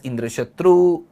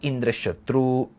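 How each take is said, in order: First: The pitch goes up within the word. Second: The pitch stays level without going up.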